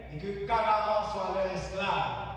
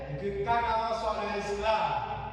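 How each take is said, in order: The two takes are said the same way.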